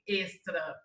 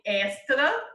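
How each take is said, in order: First: The first vowel is closed, São Paulo style. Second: The first vowel is open.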